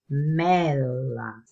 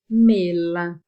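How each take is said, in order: First: The E vowel is pronounced open. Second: The E vowel is pronounced closed. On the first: This is how the speaker personally says it. "eu falo aberto" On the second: Some regions say it this way. "mas vão falar mela"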